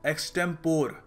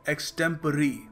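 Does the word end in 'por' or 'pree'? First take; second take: por; pree. First: The word ends in a 'por' sound. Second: The word ends in a 'pree' sound. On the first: The speaker calls it wrong. "काफ़ी लोग इस शब्द को pronounce करते हैं" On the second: The speaker calls it right. "सही तरीका इसको प्रोनाउंस करने का है"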